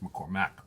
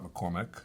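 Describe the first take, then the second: First: The last syllable sounds like 'mack'. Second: The last syllable sounds like 'mick'. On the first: The speaker calls it right. "It's McCormack, right?" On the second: The speaker calls it wrong. "not McCormick, not like the sauces and the gravy things"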